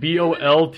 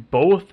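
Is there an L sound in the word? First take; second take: yes; no. First: An L sound comes before the final th. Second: No L sound comes before the final th. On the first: The speaker calls it wrong. "we both say both like BOLTH" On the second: The speaker calls it right. "I know it's supposed to be both"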